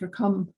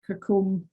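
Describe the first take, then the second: First: The name ends with a short 'cum' sound. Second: The name ends with a long 'combe' sound. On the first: The speaker calls it right. "It's Kircum" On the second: The speaker calls it wrong. "It's not Kircombe"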